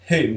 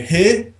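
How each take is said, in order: First: It is said in a plain English accent. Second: It is said in a Scottish accent.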